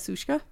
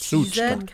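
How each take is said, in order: First: The middle consonant is a plain hissing sound. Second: The middle consonant sounds like a buzzing z. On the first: The speaker calls it wrong. "Which I found out that I actually pronounce incorrectly" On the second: The speaker calls it right. "with a TZ Suchka. Kind of a Z"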